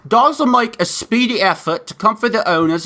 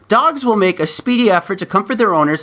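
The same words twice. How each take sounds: First: It is read in a British accent. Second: It is read in the speaker's ordinary accent.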